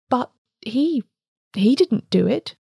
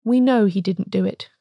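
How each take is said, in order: First: Hesitant, faltering question with rising pitch; halting, mildly tremulous protest. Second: Understated odd voice, evenly spoken. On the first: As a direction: stammer it out uncertainly, lifting at the end. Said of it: "said Bohun tremulously". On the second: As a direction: answer steadily, falling to a close. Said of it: "said the other in an odd voice". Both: A narrator's reading.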